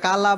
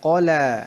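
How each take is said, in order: First: The first consonant is light and thin. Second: The first consonant is heavy and thick. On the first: The speaker calls it wrong. "এটা কালা বলা যাবে না" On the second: The speaker calls it right. "মোটা করে কলা"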